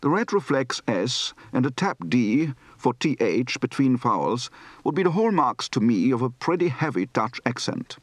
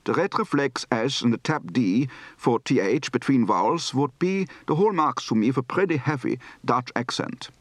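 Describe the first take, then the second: First: Mild Dutch accent; a touch of Dutch in the vowels; lightly Dutch-accented English; light to medium Dutch accent. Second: Strong Dutch accent with tapped d for th; thick Dutch-accented English; heavy Dutch accent. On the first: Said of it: "Light to medium accent". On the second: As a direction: push the Dutch sounds all the way. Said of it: "Heavy accent". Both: Shown as a demonstration.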